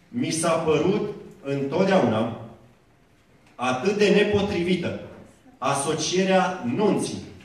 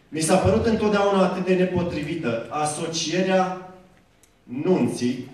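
First: The sentence is read slowly and deliberately. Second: The sentence is read at a normal, quicker pace.

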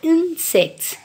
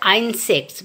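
First: The first vowel is a short 'i' sound. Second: The first vowel is a long 'eye' sound. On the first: The speaker calls it right. "we say insects. So the phonic sound is E" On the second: The speaker calls it wrong. "We don't say insects"

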